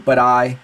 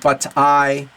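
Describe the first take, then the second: First: The two words run together as one linked unit. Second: The two words are said separately and carefully. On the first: "we'll say" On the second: "Instead of saying"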